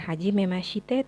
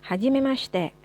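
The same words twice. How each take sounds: First: The i after sh is fully pronounced. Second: The i after sh is almost silent. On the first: The speaker calls it wrong. "bukan hajimemashite" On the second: The speaker calls it right. "huruf shi dalam bahasa Jepang memang tidak terlalu diucapkan huruf i-nya"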